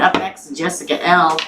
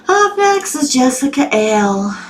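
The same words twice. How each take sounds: First: Said in the usual way. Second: High, drawn-out Southern twang; southern accent. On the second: Shown as a demonstration. Host announcing who is up next, southern accent. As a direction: stretch it out slowly in a Southern accent. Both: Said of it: "that's my southern accent".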